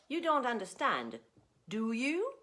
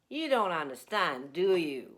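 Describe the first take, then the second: First: The voice rises on the final tag. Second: The voice falls on the final tag. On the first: The speaker genuinely asks whether the listener understands. "I'm just asking you if you understand, yes or no" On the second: The speaker is sure and wants confirmation. "That means I'm pretty sure you don't understand"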